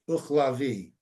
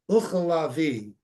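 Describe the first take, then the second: First: It is said quickly, with syllables run together. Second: It is said slowly, each syllable clear. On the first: "when you say it fast, it becomes uchalavi, and you don't hear the ch as much" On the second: "it's actually ucha, uchalavi"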